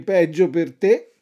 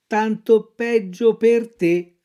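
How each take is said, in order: First: Fox voice, rising at the end; sly fox. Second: Lightly voiced cat, slow echo; a hint of a dim cat repeating. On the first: Acted. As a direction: toss it off like the fox. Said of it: "disse la volpe". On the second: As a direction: parrot the fox lazily. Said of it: "ripeté il gatto".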